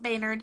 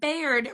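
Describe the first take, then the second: First: The name is said with an n sound. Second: The name is said without an n sound. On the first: The speaker calls it wrong. "not Baynard. I knew I was saying it wrong" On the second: The speaker calls it right. "Bayard Rustin"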